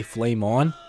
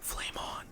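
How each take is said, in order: First: Said in the usual way. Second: Breathy whispered command; hushed falcon command. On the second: Shown as a demonstration. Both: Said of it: "even if I whisper".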